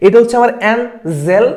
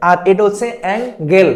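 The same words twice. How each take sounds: First: অ্যাঞ্জেল with a soft j sound, slowly; soft g angel. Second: অ্যাঙ্গেল with a hard g sound; hard g angle. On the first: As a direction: draw out অ্যাঞ্জেল with a j in the middle. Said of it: "বানানোর মধ্যে একটা পার্থক্য". (নরম জ দিয়ে অ্যাঞ্জেল) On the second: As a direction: say অ্যাঙ্গেল with a clear g in the middle. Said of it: "মানে গ". (শক্ত গ দিয়ে অ্যাঙ্গেল) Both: Shown as a demonstration.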